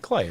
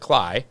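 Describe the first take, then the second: First: The name rhymes with the word day. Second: The name rhymes with the word sky. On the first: The speaker calls it wrong. "You would think Clay, right?" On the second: The speaker calls it right. "No, it's Jared Cly"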